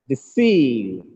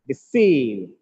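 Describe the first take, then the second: The two takes are said the same way.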